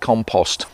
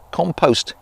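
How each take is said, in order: First: It is said the British way. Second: It is said the American way.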